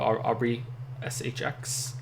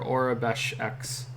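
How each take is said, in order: First: The name is read as 'Aubrey' then letters. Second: The name is read as 'Orabesh' then letter. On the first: The speaker calls it wrong. "I've said it wrong too many times" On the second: The speaker calls it right. "it's just confirmed in chat"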